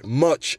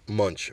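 First: Said in the usual way. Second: "Munch" with an n slipped in before ch; slip of the tongue. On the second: Real, not acted. Host echoing his own slip, "Munch" said low with an n. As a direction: quietly echo the slip "Munch", n included. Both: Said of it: "Much in there".

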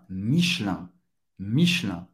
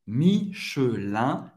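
First: Lower-pitched "Michelin" as quick mish-LAN; native dropped E. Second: Slow "Michelin" as mee-shø-LAN, three parts; careful syllables. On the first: Teacher repeating the native French form, dropped E. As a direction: join "Michelin" into two syllables, nasal ending. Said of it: "Pronunciado rápido em francês nativo". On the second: Teacher contrasting it with the native form, careful syllables. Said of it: "O E desaparece". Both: Shown as a demonstration.

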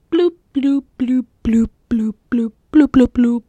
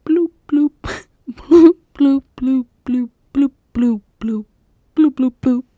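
First: Whispered water-drip bloops; dripping water sounds. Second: Giggly, louder water-drip bloops; dripping water sounds. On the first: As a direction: bloop like dripping water under your breath. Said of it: "this is Taking a Stroll". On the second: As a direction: redo the bloops, laughing through them. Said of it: "Let me start over". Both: Pretend.

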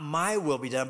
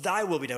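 First: "my" stressed, a wrong take. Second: "thy" stressed, the right take. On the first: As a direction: hit "my" as the wrong choice. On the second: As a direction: hit "thy" as the correct word. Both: Shown as a demonstration.

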